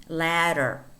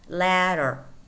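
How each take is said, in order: First: The middle consonant is a quick r-like tap. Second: The same.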